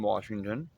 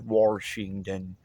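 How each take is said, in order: First: The word is said with no R sound. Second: An R sound is added in the first syllable. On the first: The speaker calls it right. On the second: The speaker calls it wrong.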